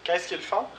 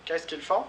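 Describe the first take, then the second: First: Font stressed, the question rising high; question model. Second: Font carries the stress at the rising end; repeat for class. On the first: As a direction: lift the whole question high and end up on font. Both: Shown as a demonstration. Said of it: "Les questions avec faire".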